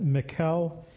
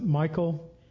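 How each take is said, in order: First: It does not sound like the English Michael. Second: It sounds like the English name Michael. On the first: "I always have said Michal" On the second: "Some people pronounce it Michael"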